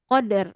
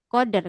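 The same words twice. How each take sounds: Both takes have the same delivery.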